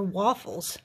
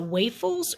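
First: Waffles said as WAH-fulls; alternative pronunciation. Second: Waffles said as WAY-fulls; long AY in the first syllable of waffles; unsure pronunciation. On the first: Shopper unsure how to say the pastry's name, offering waffles as WAH-fulls. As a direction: open AH in the first syllable of waffles. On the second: Shopper unsure how to say the pastry's name, trying waffles as WAY-fulls. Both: Shown as a demonstration. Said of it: "I think I'm saying this, is it".

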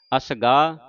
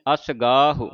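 First: ਅਸਗਾਹ stopping on long "gaa"; wrong dropped ending. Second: ਅਸਗਾਹੋ as "asgaa-hu"; sounded final u. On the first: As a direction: drop the final "hu" from ਅਸਗਾਹ. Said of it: "ਅਸਗਾਹ ਨਹੀਂ ਕਹਿਣਾ". (ਅਸਗਾਹ ਨੂੰ ਔਂਕੜ ਕੱਟ ਕੇ "ਅਸਗਾ") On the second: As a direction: sound the short u after h in ਅਸਗਾਹੋ. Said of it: "ਹਾਏ ਔਂਕੜ ਬੋਲਣਾ". (ਅਸਗਾਹੋ ਵਿੱਚ ਹਾਹੇ ਦਾ ਔਂਕੜ ਬੋਲੋ) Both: Shown as a demonstration.

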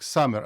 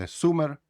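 First: «summer» as «samer»; open A. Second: «summer» as «sumer» with a U; wrong U. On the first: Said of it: "прочитаєте як summer". («summer» як «самер») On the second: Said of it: "а не summer". («summer» як «сумер», неправильно) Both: Shown as a demonstration.

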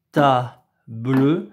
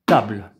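First: Table said as ta-ble with an extra final e; wrong two syllables. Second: Table clipped as one single syllable. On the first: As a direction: table with a sounded e, tab-leu. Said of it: "mais non, dans table". (table prononcé ta-bleu, deux syllabes) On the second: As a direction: table with no final vowel. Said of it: "il y a une syllabe". (table en une seule syllabe) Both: Shown as a demonstration.

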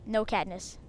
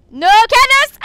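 First: Said in the usual way. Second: Very high, loud shriek; yelled protest. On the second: Real, not acted. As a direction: scream the objection at your opponent. Repeats it as panicked yell.

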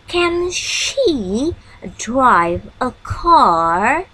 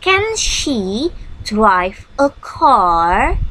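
First: Slow rising model question. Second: Can she drive a car said very slowly with a rising tune; slow and clear teacher model question. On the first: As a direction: repeat the question slowly for learners. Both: Shown as a demonstration. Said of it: "Seperti ini contohnya".

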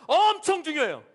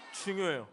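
First: 엄청 stretched and pitched up; emphatic 엄청. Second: Said in the usual way. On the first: Shown as a demonstration. Pastor has children copy him, emphatic stress on 엄청. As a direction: lean hard on a long 엄청. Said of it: "목사님 따라합시다". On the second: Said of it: "그냥 중요한 게 아니라".

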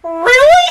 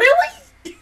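First: High, louder, through laughter; cracking up in disbelief; giggly rising really; laughing really. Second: High, laughing disbelief; can't believe what she's seeing; squeaky stunned really; incredulous really. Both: Retold or imitated. Disbelief watching the show.

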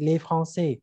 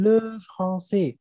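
First: Les said "lay", at an ordinary pitch; les with an "ay" vowel. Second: Le said "luh", drawn out and stressed; stressed "luh" for le, the singular article; le with an "uh" vowel. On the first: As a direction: say "lay" in les, the plural article. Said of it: "គឺសំដៅលើជនជាតិបារាំង". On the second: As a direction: lean on le with a rounded "uh". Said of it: "ភាសាបារាំង". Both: Shown as a demonstration.

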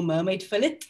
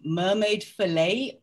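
First: Fillet with a sounded t; anglicised pronunciation. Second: Fillet with a silent t; French-style pronunciation. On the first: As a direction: say Fillet as "FILL-it". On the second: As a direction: say Fillet as "fih-LAY". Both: Shown as a demonstration. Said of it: "depending on how you want to say it".

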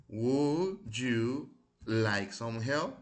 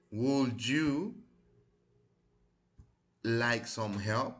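First: Very slow, loud, each word drawn out for the class; slow, careful model reading. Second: Slow model reading. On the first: Teacher repeats for students, slow and loud. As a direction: spell it out slowly so students can copy. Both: Shown as a demonstration. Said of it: "vamos a repetirlas".

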